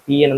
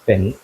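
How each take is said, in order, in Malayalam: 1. ഇത് ഓരോ അക്ഷരമായി വേർതിരിച്ച് പറയുന്നു. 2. ഇത് ഒറ്റ വാക്കായി പറയുന്നു. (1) "you can called as എ പി എൻ" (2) "this is pronounce as പെൻ"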